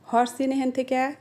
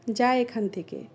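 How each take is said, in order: First: Regional Sirajganj Bengali accent; Sirajganj dialect. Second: Standard Bengali pronunciation. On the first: Telling someone to move away, Sirajganj dialect. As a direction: order it like a Sirajganj local. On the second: Telling someone to leave, standard Bengali. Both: Shown as a demonstration. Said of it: "এটাকে আমরা বলি".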